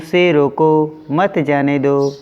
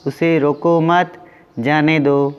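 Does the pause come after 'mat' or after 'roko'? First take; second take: after roko; after mat. First: There is a pause right after 'roko'. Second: There is a pause right after 'mat'. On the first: The person should be stopped from going. "अल्प विराम चिन्ह यहाँ लगा हुआ है, उसे रोको" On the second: The person should not be stopped; let them go. "और यहाँ पे उसे रोको मत"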